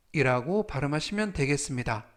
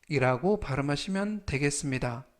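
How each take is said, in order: Both takes have the same delivery.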